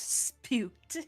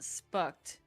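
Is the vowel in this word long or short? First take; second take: long; short. First: The vowel is long, like in 'spoon'. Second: The vowel is short, like in 'cut'. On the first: The speaker calls it right. "It's spooked" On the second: The speaker calls it wrong. "It's not spucked"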